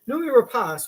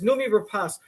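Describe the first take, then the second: First: The name is said in a warm, admiring tone. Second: The name is said in a doubtful, questioning tone. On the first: The name is being politely praised. "Instead of saying" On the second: The asker wonders where the name comes from. "what he really wants to ask is"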